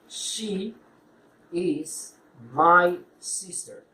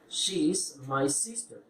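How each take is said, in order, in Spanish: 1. "She is" se dice como dos palabras completas. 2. "She is" se contrae en una sílaba.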